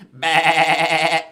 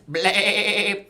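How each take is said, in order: First: Loud, lower, held bleat; sheep-like bleat. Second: Drawn-out wavering bleat; goat bleat. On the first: Host attempts farm song's goat, sheep-like bleat. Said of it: "was that a sheep or a goat?". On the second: Host retries farm song's goat, bleating. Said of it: "A goat's more of a". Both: Pretend.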